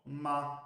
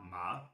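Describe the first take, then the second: First: The pitch stays high and level. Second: The pitch rises from middle to high. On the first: "the high" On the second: "the rising"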